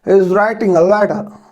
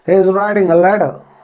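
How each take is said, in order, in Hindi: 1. letter में t नरम है, लगभग नहीं बोला गया। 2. letter में t नरम है, लगभग नहीं बोला गया।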